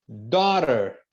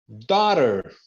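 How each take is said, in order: The two takes are said the same way.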